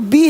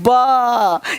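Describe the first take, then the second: First: The letter is said with a long 'ee' vowel. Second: The letter is said as a short 'ba' sound. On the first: The speaker calls it wrong. "ये बी नहीं" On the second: The speaker calls it right. "बा के उच्चारण के नियम"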